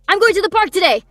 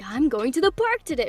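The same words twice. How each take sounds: First: It is excited at one level throughout. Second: It starts small and builds bigger.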